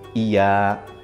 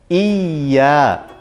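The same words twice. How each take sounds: First: The y sound is short and not held. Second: The y sound is held long and pressed. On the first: The speaker calls it wrong. "Jangan sampai langsung" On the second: The speaker calls it right. "Ya-nya harus ditekan"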